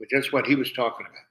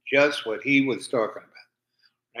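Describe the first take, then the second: First: Said in the usual way. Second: "just what he was talking about" drawn out slowly, leaning on "just"; slow emphatic repeat. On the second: Real, not acted. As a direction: repeat it slower to drive the point home.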